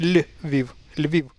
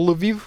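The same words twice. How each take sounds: First: "Lviv" with a soft, palatalized L. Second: "Lviv" with a hard L and a slight vowel after it; mispronounced "Lviv", hard L; wrong hard L. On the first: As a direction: say "Lviv" with the L softened, like "lyi-veev". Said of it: "the L should be the soft one". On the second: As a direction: say "Lviv" with a plain hard L, like "luh-veev". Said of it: "It's not Lviv". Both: Shown as a demonstration.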